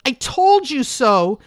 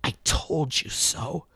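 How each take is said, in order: First: Put-on loud, high, slow teen yell; a teenager shouting it back; a teen yelling in triumph. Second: Put-on taut, softer, slow old woman's voice; a bitter old woman saying it low; an old woman scolding tautly; harsh old woman. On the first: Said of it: "a teen's voice may be yelling". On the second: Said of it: "taut, harsh voice of an old woman".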